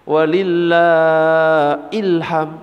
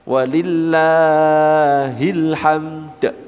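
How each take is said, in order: First: The phrase ends on m, with no final d. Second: The phrase ends with a bounced d sound. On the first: The speaker calls it wrong. "Ya salah, bukan ilham" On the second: The speaker calls it right. "ada dal di belakangnya. Mantul qalqalah kubra"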